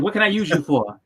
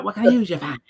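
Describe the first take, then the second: First: Said in the usual way. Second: "for" drawn to "fah", higher pitched; mock Boston accent. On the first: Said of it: "We don't say it like that". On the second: Shown as a demonstration. Showing how locals don't say it, overdone Boston accent. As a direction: exaggerate the dropped R in "for".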